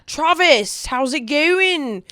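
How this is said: It is said in a put-on Australian accent.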